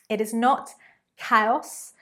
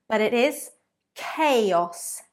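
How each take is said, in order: First: The first vowel is not like 'train'. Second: The first vowel sounds like 'train'. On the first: The speaker calls it wrong. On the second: The speaker calls it right.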